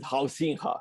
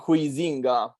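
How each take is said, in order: First: The name is said with Dutch sounds. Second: The name is read as its English spelling suggests. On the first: This is how Dutch speakers say the name. "but they pronounce it Huizinga, something like that" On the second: This is how the name looks in writing. "It's written Huizinga"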